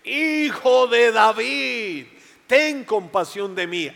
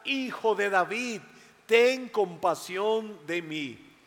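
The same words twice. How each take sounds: First: Much higher, loud, slow desperate cry; shouting louder. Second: Pleading plea. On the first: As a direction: cry out with everything. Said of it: "gritó aún más fuerte". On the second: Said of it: "volvió a gritar". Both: Acted.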